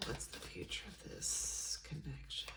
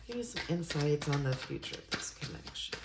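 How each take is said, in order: First: Almost soundless, breathy repeat; barely breathed question. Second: A hushed, reverent ask; whispered question. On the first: Reader to her tarot deck, repeating the question barely audibly. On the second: Reader to her tarot deck, asking in a whisper. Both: Real, not acted.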